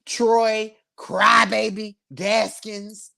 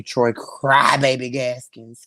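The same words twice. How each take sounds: First: Very slow, every syllable stretched; drawn-out nickname. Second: Low mocking nickname. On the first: Asking viewers to type the nickname, very slow. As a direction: spell the nickname out slowly for the chat. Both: Real, not acted. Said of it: "Can I get that in the comment".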